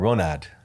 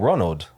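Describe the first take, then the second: First: The name is said in a heavy accent. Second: The name is said in a plain accent.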